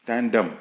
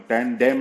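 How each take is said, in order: First: टैन डम with a weak "dum" ending; correct pronunciation. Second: टैन डैम with a full "dem" ending; wrong pronunciation. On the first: Teacher correcting the reading, टैन डम ending in "dum". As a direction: reduce the second vowel in टैन डम. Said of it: "डम पढ़ेंगे". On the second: Teacher warning learners, टैन डैम with open second vowel. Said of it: "नहीं पढ़ना है". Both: Shown as a demonstration.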